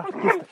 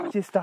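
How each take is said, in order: First: Much higher, sing-song question to the dog; high pet-talk coo. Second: Said in the usual way. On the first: Real, not acted. Cooing at the agitated dog.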